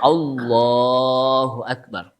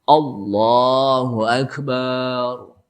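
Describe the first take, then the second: First: No vowel in Akbar is lengthened. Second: The last syllable of Akbar is lengthened. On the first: The speaker calls it right. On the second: The speaker calls it wrong. "Barnya panjang, nggak boleh juga"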